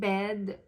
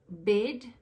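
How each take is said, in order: First: It is said with a standard English accent. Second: It is said with a New Zealand accent.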